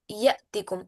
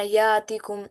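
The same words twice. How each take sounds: First: यअतिकुम with a clear glottal catch after य; teacher's right way to say यअतिकुम; correct hamza. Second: यातिकुम said with a smooth long aa and no catch; teacher showing the mistake in यातिकुम; wrong long a. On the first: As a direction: break यअतिकुम as ya-'tikum with a stop. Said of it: "इसे ऐसे नहीं पढ़ना यातिकुम". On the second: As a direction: run यातिकुम together as yaatikum. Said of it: "इसे ऐसे नहीं पढ़ना". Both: Shown as a demonstration.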